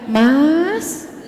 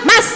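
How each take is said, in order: First: The call is calm and gentle. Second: The call is loud and harsh.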